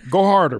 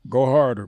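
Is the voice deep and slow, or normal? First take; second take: normal; deep. First: The voice is at normal pitch and speed. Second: The voice is deeper and slower.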